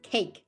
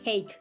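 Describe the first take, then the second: First: It is one syllable ending in a bare k. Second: It is one syllable ending in a bare k.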